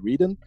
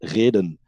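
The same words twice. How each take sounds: First: It is said to rhyme with Eden. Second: It is said with a Dutch pronunciation. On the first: It follows the old name Eden. "Because we are coming from Eden, it would be logical to say Reden" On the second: It is the Dutch word for reason. "in Dutch ... it's said reden"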